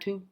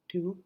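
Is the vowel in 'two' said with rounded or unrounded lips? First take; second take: unrounded; rounded. First: The vowel is said without clear lip rounding. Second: The vowel is said with strongly rounded lips. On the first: The speaker calls it wrong. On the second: The speaker calls it right.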